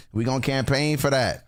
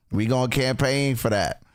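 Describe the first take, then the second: No difference in how they are said.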